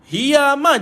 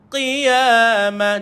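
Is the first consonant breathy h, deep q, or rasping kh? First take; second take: breathy h; deep q. First: It starts with a breathy h sound. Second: It starts with a deep stop, no air escaping. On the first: The speaker calls it wrong. "Kalau tuan-tuan keluar angin, hiyamah jadi huruf ha pula" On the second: The speaker calls it right. "jangan keluarkan air, jangan keluarkan angin"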